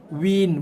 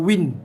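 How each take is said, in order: First: The vowel is held one beat before the n. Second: The vowel is clipped straight into the n. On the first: The speaker calls it right. "Bunyikan win satu harakat. ... Baru bunyikan, baru sentuhkan dengan N" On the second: The speaker calls it wrong. "Bukannya win"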